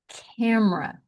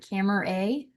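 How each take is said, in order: First: It is said shortened, with sounds run together. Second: Every letter is sounded, with a full final vowel. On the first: The speaker calls it right. "becomes camera" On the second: The speaker calls it wrong. "camera A becomes"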